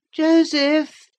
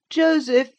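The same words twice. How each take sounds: First: Put-on high, loud petulant boy calling from another room; peevish cry. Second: Put-on high, loud petulant boy calling the name again; peevish call. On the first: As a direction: whine the name out loud and high. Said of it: "cried a peevish voice". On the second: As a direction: demand him back impatiently. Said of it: "a peevish voice". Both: A narrator's reading.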